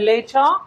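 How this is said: The middle t is a clear t sound. "ব্রিটিশরা বলে লেটার"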